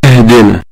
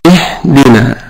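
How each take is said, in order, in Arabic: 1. صوت h مجهور، وليس مجرد هواء. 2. صوت h مجرد هواء فقط. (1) "ونسمع الناس تقول هكذا اهدنا" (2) "فتكون إيه هواء فقط"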